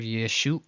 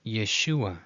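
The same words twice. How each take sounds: First: Yeshua broken as ye-shu, gap, ah; wrongly read pause. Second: Yeshua joined as ye-SHU-a, no gap; reversed, correct reading. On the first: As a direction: pause before the final ah of Yeshua. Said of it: "but it's reversed. So instead of". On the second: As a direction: run the u into the final a of Yeshua. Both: Shown as a demonstration.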